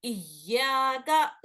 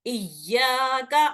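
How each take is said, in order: First: इय्याका said very slowly, each sound drawn out, the या held long; very slow recitation. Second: इय्याका slowly, the या vowel held for two counts, rising at the end; stretched recitation. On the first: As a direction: say इय्याका again, even slower and more drawn out. (बहुत धीरे खींचकर) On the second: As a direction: draw out the या of इय्याका, ending up. (या को खींचकर, आवाज़ ऊपर) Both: Shown as a demonstration. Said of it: "इसको खींचना पड़ता है".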